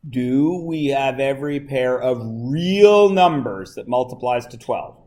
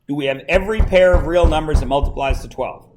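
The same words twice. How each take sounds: First: It is said more slowly. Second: It is said at a normal pace.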